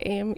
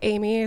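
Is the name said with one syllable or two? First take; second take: one; two. First: The name is said with one syllable. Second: The name is said with two syllables. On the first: "sometimes I pronounce it Aim" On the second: "sometimes I pronounce it Amy"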